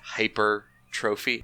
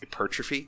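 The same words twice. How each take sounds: First: It sounds like 'hyper' plus the word 'trophy'. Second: It is said as one word, not 'trophy'. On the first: The speaker calls it wrong. "you can say it like it's spelt" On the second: The speaker calls it right. "it's like pronounced"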